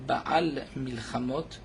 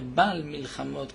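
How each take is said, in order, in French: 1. Le son guttural dans Baal est bien prononcé. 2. Le son guttural dans Baal est omis. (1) "il faut faire attention de bien prononcer le Aïn" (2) "pour ne pas entendre"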